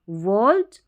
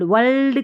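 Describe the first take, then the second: First: The L sound is light and only half pronounced. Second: The L sound is pronounced fully and clearly. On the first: The speaker calls it right. "वर्ल्ड हल्का सा आधा सा ल एल के लिए" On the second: The speaker calls it wrong. "वर्ल्ड वर्ल्ड वर्ल्ड वर्ल्ड करके नहीं पढ़ना"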